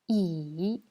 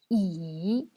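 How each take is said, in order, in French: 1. Le ton plonge bas puis remonte. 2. Le ton plonge bas puis remonte.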